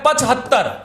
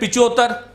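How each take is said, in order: First: Said as pachhattar, with a clear h sound. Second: Said as pichottar, with no h or y. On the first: The speaker calls it right. "तो ये शब्द बनता है पचहत्तर" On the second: The speaker calls it wrong. "कुछ तो बोलते हैं पिचोत्तर"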